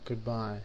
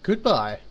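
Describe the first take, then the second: First: It sounds flat and depressed. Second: It sounds brighter and cheerful.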